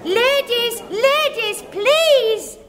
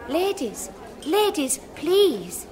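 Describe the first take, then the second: First: It is shouted loudly. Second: It is said quietly.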